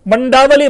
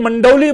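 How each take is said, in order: First: The name is said in full, four syllables. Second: The name is shortened, the middle syllable merged. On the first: "कौन मंडावली बोलेगा पूरा" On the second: "मंडौली बोल गए"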